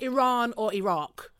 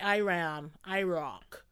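First: It is said with a British pronunciation. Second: It is said with an American pronunciation.

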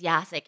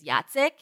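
First: The name is said with an English pronunciation. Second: The name is said with a Polish pronunciation. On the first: This is the easier form used around non-Polish speakers. The speaker calls it wrong. "It's actually not pronounced Yasik" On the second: This is the name's original form. The speaker calls it right. "the proper Polish pronunciation is Yacek"

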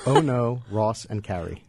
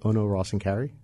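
First: It is said slowly. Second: It is said very fast.

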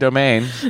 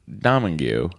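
First: The surname is said like 'Domain'. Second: The surname is said like 'Domingue'. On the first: The speaker calls it right. "the last name is pronounced domain" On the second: The speaker calls it wrong. "I butchered your name"

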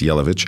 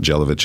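First: The name starts without a J sound. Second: The name starts with a hard J sound. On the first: The speaker calls it right. "It's a silent J" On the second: The speaker calls it wrong. "so it's not Jelavic"

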